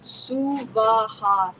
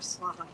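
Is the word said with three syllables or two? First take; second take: three; two. First: The word has three separate, equal syllables. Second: The word is squeezed into two syllables. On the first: The speaker calls it right. "three separate equal syllables" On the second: The speaker calls it wrong. "not Swaha"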